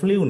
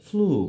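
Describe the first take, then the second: First: A 'y' glide comes before the vowel. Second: The vowel follows with no glide. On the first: The speaker calls it wrong. "এখানে ফ্লিউ নয়" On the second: The speaker calls it right. "হবে ফ্লু"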